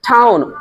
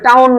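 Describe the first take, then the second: First: The t is said with a puff of air. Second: The t is said without a puff of air. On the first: The speaker calls it right. "ঠ বলতে হবে" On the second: The speaker calls it wrong. "ঠ বলতে হবে, টাউন না"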